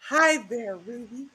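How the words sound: It is said in a seductive voice.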